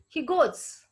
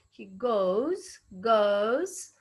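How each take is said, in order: First: Goes said slowly with a pure o, Indian style. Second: Goes with a gliding RP diphthong; standard goes. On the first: Teacher imitating the Indian goes. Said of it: "in Indian pronunciation". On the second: Teacher modelling standard goes. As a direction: say goes the British way, o sliding to u. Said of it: "in standard pronunciation". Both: Shown as a demonstration.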